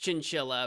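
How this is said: The word is given an English pronunciation. "that in English is chinchilla"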